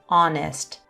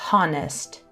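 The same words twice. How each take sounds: First: The word starts with a vowel sound, no h. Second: The word starts with an audible h sound. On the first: The speaker calls it right. "it begins with a vowel sound. Ah" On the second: The speaker calls it wrong. "not honest"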